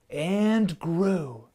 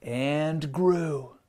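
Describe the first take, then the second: First: And grew lifted a bit higher, grew stretched out; building wonder. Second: Said in the usual way. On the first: A narrator's reading. Narrator building the growing forest for kids, rising wonder. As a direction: let grew swell with wonder.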